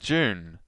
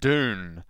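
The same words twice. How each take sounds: First: It is said in a New Zealand accent. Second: It is said in an American accent.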